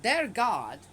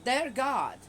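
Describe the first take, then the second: First: "their" punched loud and slow, falling on God; stress on their. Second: "Their" hit loud and high, then God falls; stress on their. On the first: Reading the scripture, stressing "their God" pointedly. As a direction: lean hard on "their" to disown this God. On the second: Repeating it to the viewers, pointed stress on "Their". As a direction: push "Their" away from yourself, loudly. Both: Shown as a demonstration. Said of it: "I'm have to say it like that".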